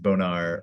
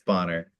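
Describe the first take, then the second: First: The name is said with a French-sounding pronunciation. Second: The name is said with a plain English pronunciation. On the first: This is how others mistakenly say the name. The speaker calls it wrong. "almost every council member thinks my name is Bonar or whatever" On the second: This is the name's actual pronunciation. The speaker calls it right. "but it is, it's Bonner"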